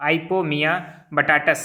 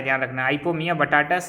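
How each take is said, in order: First: "Ipomoea batatas" drawn out slowly and clearly; slow dictation. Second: Said in the usual way. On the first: Shown as a demonstration. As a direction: spell out "Ipomoea batatas" for students to repeat. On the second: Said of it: "ये एक साथ है".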